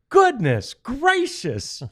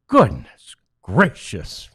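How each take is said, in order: First: It sounds impressed and excited. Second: It sounds dismayed and exasperated. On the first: Something good or amazing happened. "it wasn't like" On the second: The team kept failing to take its chances. "It was, oh"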